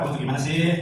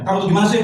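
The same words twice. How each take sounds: First: The tone is soft and pleading. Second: The tone is harsh and scolding. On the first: The child is being made to feel guilty. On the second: The child is being punished for the offence.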